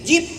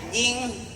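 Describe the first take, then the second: First: The word ends with a hard p sound. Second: The word ends with an ng sound. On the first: "Jangan kencengin" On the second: "Sewot gurunya rapetin nih"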